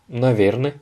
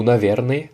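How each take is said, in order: First: "наверное" ending in a reduced navyern-e; "наверное" as three syllables, ending barely sounded; shortened ending. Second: "наверное" with the final e clearly sounded; "наверное", last syllable given its full sound; fuller ending. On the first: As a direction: say "наверное" with the last vowels cut to one light sound. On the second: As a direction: say "наверное" with a distinct vowel at the end. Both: Shown as a demonstration. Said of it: "les deux sont".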